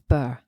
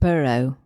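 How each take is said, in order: First: The ending is said with one syllable. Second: The ending is said with two syllables. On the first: The speaker calls it right. "it's Burr" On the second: The speaker calls it wrong. "it's not borough"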